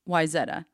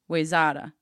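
First: The name is given its actual local pronunciation. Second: The name is given a common outsider mispronunciation. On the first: This is the town's real name. The speaker calls it right. "the town is actually called Wayzata" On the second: This is how outsiders mistakenly say it. The speaker calls it wrong. "it's spelled so people pronounce it Wayzata"

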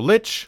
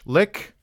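First: The word ends with a ch sound. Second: The word ends with a k sound. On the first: "So lich, lick, both of those are fine" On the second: "both of those are fine"

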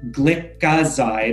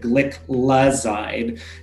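First: The word has no L sound after the first syllable. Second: The word has an L sound after the first syllable. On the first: The speaker calls it wrong. "I always used to think that it was pronounced" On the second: The speaker calls it right. "you want to make sure that you have your L"

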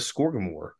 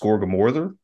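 First: The word ends in a plain 'mor' sound. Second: The word ends with an extra 'ther' syllable. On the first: This is the American way of saying it. "we pronounce it here in America as Skorgamor" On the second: This is the Scandinavian way of saying it. "more aptly pronounced Skorgamorther"

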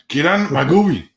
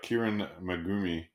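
First: It is said in an angry tone. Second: It is said in a neutral tone.

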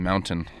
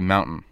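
First: The middle t sound is clearly pronounced. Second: The middle t sound is swallowed. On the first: "Some people enunciate and say mountain" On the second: "And I say mountain"

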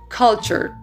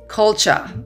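First: It is said in a non-British accent. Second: It is said in a British accent. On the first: "the pronunciation is culture" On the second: "British sound would be like culture"

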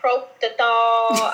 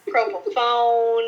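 First: The word has a t and ends in thol. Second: The word ends with a fone sound. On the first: "I have heard proptothol" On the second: "I have heard propofone"

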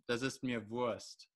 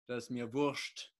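First: It is said in a plain standard accent. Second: It is said in a regional German accent.

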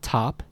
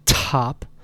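First: The T has only a light puff of air. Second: The T has a strong, exaggerated puff of air. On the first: The speaker calls it right. "but just say top" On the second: The speaker calls it wrong. "don't overblow it, don't say top"

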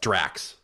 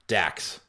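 First: The name has an r sound after the d. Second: The name has no r sound after the d. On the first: The speaker calls it right. "It's Drax, sorry" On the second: The speaker calls it wrong. "I said Dax"

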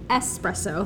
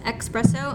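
First: It begins with an 'es' sound, no k. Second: It begins with an 'ex' sound, like expresso. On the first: The speaker calls it right. "That's espresso" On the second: The speaker calls it wrong. "If you pronounce it as espresso, I'm so sorry. It's actually wrong"

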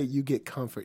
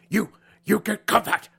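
First: The phrase is said smoothly without breaks. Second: The phrase is broken up by strange pauses. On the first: The speaker calls it right. "you can just say" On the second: The speaker calls it wrong. "He's like"

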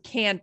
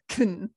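First: The word is stressed with a full vowel. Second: The word is unstressed with a reduced vowel. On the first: "can is often unstressed. So it goes from can" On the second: "to can most of the time"

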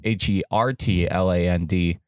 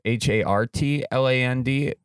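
First: The word is said in a plain, normal way. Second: The word is said in a cute, playful way.

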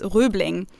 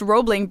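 First: The first vowel is a rounded German front vowel. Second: The first vowel is an English long 'oh' sound. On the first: "So in German, it would be pronounced Rübling" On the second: "English, Roebling Bridge"

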